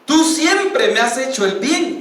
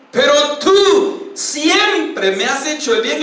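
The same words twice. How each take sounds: First: Said in the usual way. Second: Más alto y lento, con voz dolida; lamento del rey. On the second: Acted. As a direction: reconoce la bondad con pena. (Saúl reconoce la bondad de David, dolido) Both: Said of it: "y empieza a llorar a gritos".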